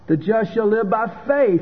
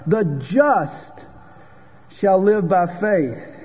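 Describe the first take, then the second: First: The word 'faith' carries the main stress. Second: The word 'just' carries the main stress. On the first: One must continue in faith. "the stress is on faith" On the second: It is the righteous who are justified by faith. "Romans 1 verse 17 focuses on the word just"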